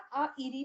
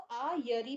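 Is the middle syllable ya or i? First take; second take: i; ya. First: The middle syllable is a plain i vowel. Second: The middle syllable has a y sound. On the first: "आ इरी भी दिखेगा। दोनों ठीक है" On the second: "कई जगह आपको आ यरी भी दिखेगा"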